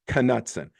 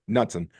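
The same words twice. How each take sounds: First: The first K sound is pronounced. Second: The first K sound is silent. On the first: The speaker calls it right. "No, it actually was Knutson" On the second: The speaker calls it wrong. "I just left the K off. I left it silent"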